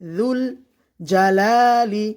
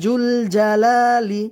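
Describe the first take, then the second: First: The first word begins with a soft 'z' sound. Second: The first word begins with a 'j' sound. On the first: The speaker calls it right. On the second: The speaker calls it wrong.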